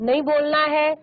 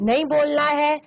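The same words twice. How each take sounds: Both takes have the same delivery.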